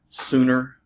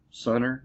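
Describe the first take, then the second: First: "Sooner" with a long oo; trying a pronunciation. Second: "Sooner" said as SUN-er; short uh in "Sooner", like sun; trying another pronunciation. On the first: Beer drinker guessing at a German name, "Sooner" with long oo. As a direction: say "Sooner" as SOO-ner. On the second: Beer drinker unsure of the German name, "Sooner" as SUN-er. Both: Shown as a demonstration. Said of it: "saying that wrong".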